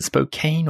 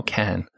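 First: "Spokane" said as spo-CANE; alternative pronunciation. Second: "Can" with a short flat-A vowel, as in "pan"; contrasted pronunciation. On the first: Host recalls doubt over the place name, alternative pronunciation. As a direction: end "Spokane" like the word "cane". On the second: Host weighs two endings of the place name, contrasted pronunciation. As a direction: say "Can" to rhyme with "man", not "cane". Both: Shown as a demonstration. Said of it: "is it Spokane or Can".

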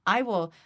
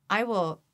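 No difference in how they are said.

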